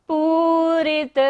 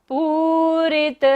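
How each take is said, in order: Both takes have the same delivery.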